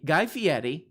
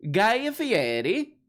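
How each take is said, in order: First: Said in the usual way. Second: "Guy Fieri" drawn out slowly, pitch soaring high on Guy; said right with respect. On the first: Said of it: "say it right". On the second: Shown as a demonstration. Host demanding respect for the name, slow and high. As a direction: savour Guy Fieri like a grand title. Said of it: "say it right and show him the respect he deserves".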